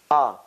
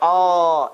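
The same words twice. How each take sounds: First: The vowel is short with a glottal start. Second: The vowel is long and stretched out. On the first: The speaker calls it right. "It's ah" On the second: The speaker calls it wrong. "don't stretch the sound. Don't say ah"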